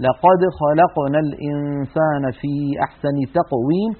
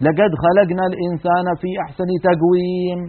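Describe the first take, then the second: First: "لقد خلقنا" و"تقويم" بقاف فصيحة مجهورة, ببطء; تلاوة بالقاف الفصحى ببطء; correct qaf recitation. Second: "لقد خلقنا" و"تقويم" بصوت g: lagad khalagna, tagwiim; تلاوة بالقاف العامية g; dialect g in recitation. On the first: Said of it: "ولا ننطق إلا كذلك". (تلاوة صحيحة بالقاف الفصيحة) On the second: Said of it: "يقرؤون القرآن بهذا الصوت". (تلاوة بالقاف العامية g) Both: Shown as a demonstration.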